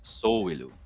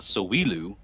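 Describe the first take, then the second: First: The stress falls on the first syllable. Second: The stress falls on a later syllable. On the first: The speaker calls it right. "It's put on the front" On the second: The speaker calls it wrong. "It's not Sowilu"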